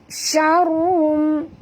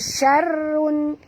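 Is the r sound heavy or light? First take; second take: heavy; light. First: The r sound is heavy and thick. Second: The r sound is light and thin. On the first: The speaker calls it right. "jadi mesti tebal, dua-dua tebal" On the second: The speaker calls it wrong. "tak boleh baca syarrun"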